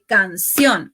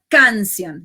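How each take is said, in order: First: The stress is on the last syllable. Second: The stress is on the first syllable. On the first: The speaker calls it right. "Accentuación na le, le nou fini" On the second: The speaker calls it wrong. "E pa canción"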